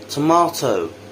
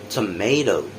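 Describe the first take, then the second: First: British accent, with an open 'ah' vowel. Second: American accent, with a different, flatter vowel. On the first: "the British version first" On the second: "the American later"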